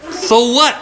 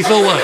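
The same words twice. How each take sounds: First: Put-on high, cheeky sneer of a rude girl; rude girl retort. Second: Said in the usual way. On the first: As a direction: toss it back like a bratty kid.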